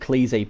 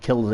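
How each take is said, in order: First: The name begins with a long 'klee' sound. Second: The name begins with a short 'kill' sound. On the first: Someone else says it this way. "someone said it's, it's called Cleasy" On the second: It sounds more dangerous. "I'm going to call it Killsey because you know sounds a bit more dangerous"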